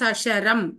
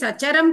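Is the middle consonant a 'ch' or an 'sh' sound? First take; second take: sh; ch. First: The middle consonant is an 'sh' sound. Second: The middle consonant is a 'ch' sound. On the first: The speaker calls it right. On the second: The speaker calls it wrong.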